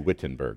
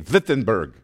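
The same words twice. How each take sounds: First: The name is pronounced with English sounds. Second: The name is pronounced with German sounds. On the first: This is not how local people say it. "They don't say Wittenberg" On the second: This is how local people say it. "They say Wittenberg"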